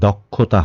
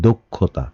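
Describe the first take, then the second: First: The first vowel is an open 'aw' sound. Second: The first vowel is a closed 'o' sound. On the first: The speaker calls it wrong. "কখনোই দক্ষতা হবে না" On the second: The speaker calls it right. "হবে দক্ষতা"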